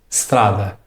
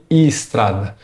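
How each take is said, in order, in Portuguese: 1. A palavra começa diretamente com o som de S. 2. Um som de vogal 'e' é acrescentado antes do S. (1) "Você deve soltar o som da letra S diretamente" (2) "Você não pode colocar um som de I ou de E antes do S"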